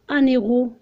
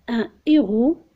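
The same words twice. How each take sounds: First: The n links into the following vowel. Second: The n does not link to the vowel. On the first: The speaker calls it wrong. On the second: The speaker calls it right.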